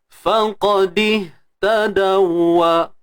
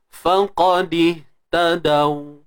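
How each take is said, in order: First: The w is doubled and followed by a vowel. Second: The word ends on a single, unvoweled w. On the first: The reading continues into the next word. "Berlakulah idgham mislain" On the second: The reading stops at this word. "bila kita nak berhenti, idgham mislain tak berlaku"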